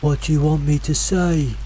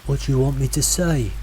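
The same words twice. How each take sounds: First: Higher, mimicking call from the fog. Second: Said in the usual way. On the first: A narrator's reading. Mimic voice to hikers in fog, calling out. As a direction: echo a companion's question as a distant call. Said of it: "called out again". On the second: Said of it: "Josh asked from behind".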